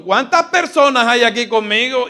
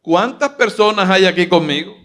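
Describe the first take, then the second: First: High, loud, fast call to the crowd; rousing question. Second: Loud, rising call to the crowd; louder question. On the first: Pastor rallying the congregation with a question. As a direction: fire up the congregation. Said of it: "Dígalo más fuerte". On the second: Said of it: "vamos a ver si se te sube el tono". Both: Pretend.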